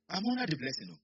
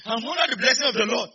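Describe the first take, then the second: First: Said in the usual way. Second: Loud, raised-pitch proclamation; full-voiced church declaration; forceful declaration. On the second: Real, not acted. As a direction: declare it louder to rouse the congregation. Repeats declaration forcefully to congregation.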